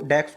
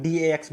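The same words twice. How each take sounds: First: "डैक्स" said as one syllable, like "daks"; said as one word. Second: "डीएएक्स" said letter by letter, D-A-X; spelled out. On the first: Teacher shows how some people say the index name, "डैक्स" as one word. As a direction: say "डैक्स" as a single word, not spelled out. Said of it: "कुछ लोग डैक्स बोलते हैं". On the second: Teacher shows what other people say, "डीएएक्स" spelled out letter by letter. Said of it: "कुछ लोग डीएएक्स बोलते हैं". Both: Shown as a demonstration.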